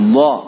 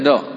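First: The consonant is heavy, with a full mouth. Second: The consonant is light, without a full mouth. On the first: The speaker calls it right. "seperti ada isinya mulut kita" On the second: The speaker calls it wrong. "Jangan dibaca do"

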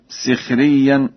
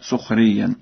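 First: The first syllable has the vowel i. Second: The first syllable has the vowel u.

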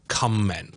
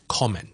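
First: The first syllable sounds like 'come'. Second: The first syllable sounds like 'com'. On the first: The speaker calls it wrong. "我哋唔系读comment 嘅" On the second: The speaker calls it right. "亦都系com 嘅"

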